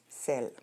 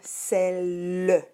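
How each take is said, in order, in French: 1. Le e final est muet. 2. Le e final se prononce comme une syllabe en plus. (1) "Mais on prononce celle" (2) "tu devrais l'écrire celle"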